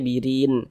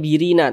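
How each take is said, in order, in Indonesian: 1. Kata ini berakhir pada n yang tidak terdengar dan terhenti. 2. Kata ini berakhir dengan vokal pendek setelah n. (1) "tapi dibaca birin" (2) "jangan dibaca birina"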